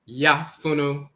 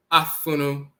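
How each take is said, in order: First: "yafunu" said slowly as yah-FOO-noo with a y-glide; drawn-out yafunu, y-glide first; pronouncing yafunu. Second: "afunu" said ah-FOO-noo with no y-glide; pronouncing afunu. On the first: Teacher contrasts yafunu with afunu, slowly. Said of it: "So you went from afunu to". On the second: Teacher contrasts afunu with yafunu. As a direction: open straight on the a, no y. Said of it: "So you went from". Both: Shown as a demonstration.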